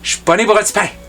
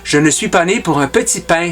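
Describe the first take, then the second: First: 'Je suis' merges into a hushed 'chuis' sound. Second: Every word is said in full, with clear 'je suis'.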